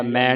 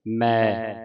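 First: ਮੈਂ with a nasal ending; nasalised reading. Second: ਮੈਂ as a pure mai, no nasal; without nasal dot. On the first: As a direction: let ਮੈਂ hum through the nose. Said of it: "ਮੈਂ ਨਹੀਂ ਪੜਨਾ". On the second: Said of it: "ਬਿੰਦੀ ਤੋਂ ਰਹਿਤ ਪੜਨਾ ਹੈ". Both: Shown as a demonstration.

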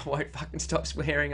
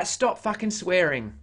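First: Said in the usual way. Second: Slightly raised, drawn-out whinge; mock whinge. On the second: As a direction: read it as a slow mock complaint. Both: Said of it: "having a bit of a whinge".

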